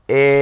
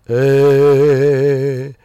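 First: The voice sounds flat and closed. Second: The voice sounds open and resonant.

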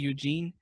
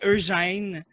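First: The name is said with English pronunciation. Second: The name is said with French pronunciation.

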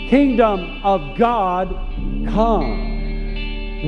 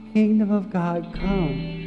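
First: It sounds like a firm command. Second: It sounds like a gentle request.

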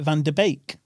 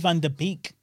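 First: The last syllable rhymes with 'bake'. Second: The last syllable does not rhyme with 'bake'. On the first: "Like a steak bake?" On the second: "I say Van der Beek"

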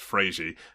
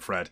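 First: The name ends with an added 'ee' vowel. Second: The name ends sharply on the 'd' sound. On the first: This is how the name is said in Brazil. "Apparently Fred is pronounced Frazy" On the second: This is how people in this country say it. "but we all just call him Fred"

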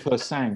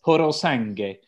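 First: The name is said short, clipped at the end. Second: The name is said in full, every syllable. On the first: The speaker calls it wrong. "I thought it was called Persang" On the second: The speaker calls it right. "I looked at the phonetic pronunciation. It's Porosangue"

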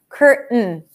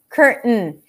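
The two takes are said the same way.

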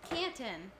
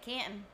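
First: The middle T is clearly pronounced. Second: The middle T is dropped, local northern style.

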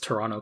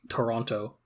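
First: It is said in a local Toronto accent. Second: It is said in an American accent. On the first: "local GTA English dialect pronunciation. As I have just given" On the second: "As opposed to like an American who'd be like Toronto"

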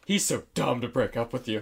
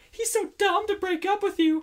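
First: It is said in a plain natural voice. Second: It is said in a put-on character voice. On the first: The speaker calls it right. "That's better" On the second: The speaker calls it wrong. "I'm not going to do this voice"

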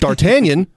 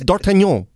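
First: The name is said with an English pronunciation. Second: The name is said with a French pronunciation. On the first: The speaker calls it wrong. "Everyone else was like" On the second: The speaker calls it right. "It's fucking French. Just say it like that"

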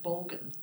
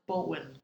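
First: The name is said with an anglicized pronunciation. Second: The name is said with a Danish-style pronunciation. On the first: This is how British people say it. The speaker calls it wrong. "The Brits pronounce it Bolgan" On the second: This is how it is really said. The speaker calls it right. "It's actually pronounced Bolwyn"

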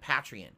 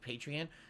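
First: The first syllable does not sound like 'patron'. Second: The first syllable sounds like the start of 'patron'. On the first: The speaker calls it wrong. "most people pronounce it Patreon" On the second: The speaker calls it right. "It should be Patreon, like you're a patron of the arts"

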